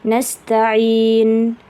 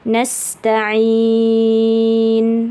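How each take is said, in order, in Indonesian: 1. Vokal sebelum n terakhir dibaca sebentar. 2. Vokal sebelum n terakhir dibaca paling panjang. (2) "atau enam"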